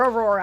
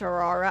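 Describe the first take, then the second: First: The first part does not sound like aura. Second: The first part sounds like the word aura. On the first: The speaker calls it right. "Or Aurora" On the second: The speaker calls it wrong. "I keep pronouncing it like I pronounce Aura"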